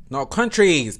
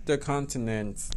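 First: "countries" punched louder; correcting herself. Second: Said in the usual way. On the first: Real, not acted. Fixing her slip for viewers, stressed. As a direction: hit "countries" as the fix.

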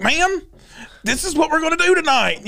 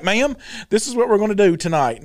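First: Higher, insistent repeat; imitating an officer standing firm; insistent retold officer. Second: Said in the usual way. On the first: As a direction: talk over a screamer, pitched up. Officer repeats over her screaming.

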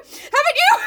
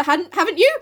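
First: Very high, loud questioning shriek; mock panic. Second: Said in the usual way. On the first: Beth pressing Jo about scarlet fever, mock panic. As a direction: shoot the question up into a hammed-up squeal.

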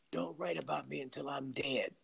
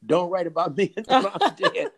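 First: Much softer, matter-of-fact delivery. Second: Louder, higher, breaking into a laugh; laughing quote. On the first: Writer recalling his friend's condition, quietly quoted. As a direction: drop the volume for a confided instruction. Quoting Miles, then repeated laughing. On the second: Writer repeating his friend's condition, laughing. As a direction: repeat it with open amusement. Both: Retold or imitated.

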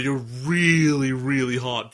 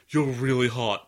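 First: "really, really" drawn out, the first punched loud; stress on REALLY. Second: Said in the usual way. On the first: Retold or imitated. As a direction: insist hard on "really". Retold pickup line, insisting harder.

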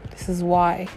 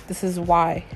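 Both takes have the same delivery.

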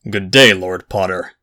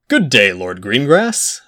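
First: Understated cold greeting, falling at the end; cool displeasure. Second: Greeting drawn out, lifting at the end; cordial greeting. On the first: Jacob greets unwelcome Lord Potter, coolly displeased. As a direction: return the greeting with polite reluctance. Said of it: "his voice making it clear that it had just become less so". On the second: Lord Potter greets a rival from behind, cordial. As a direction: hail him politely with a slow, rising lilt. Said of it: "said a voice behind him". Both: A narrator's reading.

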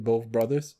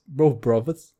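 First: Said in the usual way. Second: Amateur Cockney, th turned to v; put-on London Cockney accent. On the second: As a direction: imitate a Cockney saying "brothers". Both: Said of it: "he fucking Cockney accent?".

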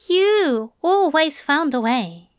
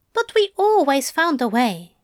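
First: You stressed, falling close. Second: We stressed, falling close. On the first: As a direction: lean on "You", crediting the angel. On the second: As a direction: lean on "we" together. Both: A narrator's reading. Contrasting we and you.

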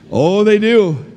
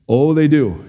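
First: "Oh, they do" pitched up and drawn out; emphatic repeat. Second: Said in the usual way. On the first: Real, not acted. Preacher tells married folks the vows change everything, "they do" lifted emphatically. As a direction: insist knowingly, lifting "they do". Repeats answer with more force.

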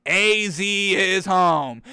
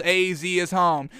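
First: "A Z" said as two slow separate letters; letters spelled out. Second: Said in the usual way. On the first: Shown as a demonstration. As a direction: drag out "A Z is home" letter by letter. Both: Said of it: "capital A, capital Z".

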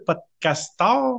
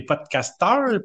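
First: Podcasteurs? dragged out very slowly, rising into a question; podcasteurs? stretched and raised as if unsure of the word; doubtful question. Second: Podcasteurs said slow, firm and falling like a statement; stated flatly. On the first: Host doubting the name for listeners, slow questioning rise. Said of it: "C'est des podcasteurs". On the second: Host proposing a name for listeners, slow and sure. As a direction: podcasteurs drawn out and settled with a falling end. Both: Shown as a demonstration.

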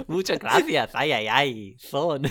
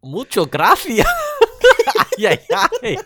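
First: A lighter hammed-up Spanish accent, higher; mock Spanish accent. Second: Loud, higher hammed-up Spanish accent dad; mock Spanish accent. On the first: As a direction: repeat the fake Spanish-accented dad line. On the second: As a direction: belt out a cartoonish Spanish accent, playing the dad. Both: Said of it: "you have to do the accent too".

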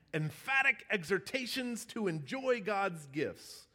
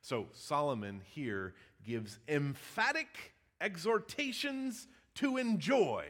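First: "Emphatic exhortations" hit higher, each word punched; alliterative emphasis. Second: Said in the usual way. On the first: Shown as a demonstration. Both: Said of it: "How's that for some alliteration?".

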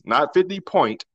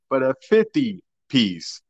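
First: Slow, stressed "not fifty point". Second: Slow, stressed "fifty piece". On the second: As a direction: hit "piece" in "fifty piece", slowly. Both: Shown as a demonstration.

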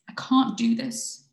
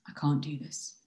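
First: Loud, high, drawn-out plea; overwhelmed protest. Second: Low-key, defeated confession; subdued admission. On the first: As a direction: cry out at breaking point. Voiced partner panicking in a crisis. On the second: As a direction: give up without raising the voice. Same words later, giving up. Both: Acted.

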